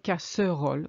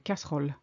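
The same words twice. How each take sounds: First: The middle vowel is pronounced as a syllable. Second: The middle vowel is dropped entirely. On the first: The speaker calls it wrong. "We don't say casserole" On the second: The speaker calls it right. "You see how we skip the middle E? ... we say casserole"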